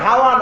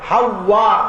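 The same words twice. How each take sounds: First: The middle w sound is short and single. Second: The middle w sound is doubled and held longer. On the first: The speaker calls it wrong. "ওনার নাম কিন্তু হাওয়া না" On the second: The speaker calls it right. "এটা তাসদীদ দিয়ে বলতে হবে"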